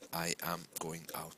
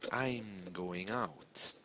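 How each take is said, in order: First: The words are said separately, with no contraction. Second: The words are contracted and linked smoothly together. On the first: The speaker calls it wrong. "you'll sound like a robot" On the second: The speaker calls it right. "is very different from saying I am going out"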